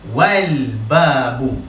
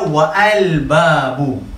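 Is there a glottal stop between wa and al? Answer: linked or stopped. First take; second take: linked; stopped. First: Wa runs straight into al without a stop. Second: A glottal stop separates wa from al. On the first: The speaker calls it right. "Jadi bacaannya adalah wal babu" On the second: The speaker calls it wrong. "kita tidak tidak boleh baca wa'al babu"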